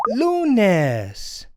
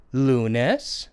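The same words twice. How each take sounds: First: Lunes called out high, LU drawn out, falling on nes; Spanish pronunciation demo. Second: Lunes said low with a rising end; review prompt. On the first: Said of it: "Monday is pronounced". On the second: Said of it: "let's go over that again". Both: Shown as a demonstration.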